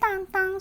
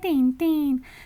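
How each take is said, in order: First: The name has French nasal vowels. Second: The name has plain Spanish vowels. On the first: This is how the name sounds in its original language. "la pronunciación correcta en francés" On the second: This is how the name reads as written. "claramente dice Tintín"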